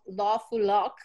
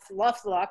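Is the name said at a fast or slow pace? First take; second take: slow; fast. First: The name is said slowly, syllable by syllable. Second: The name is said quickly, syllables run together.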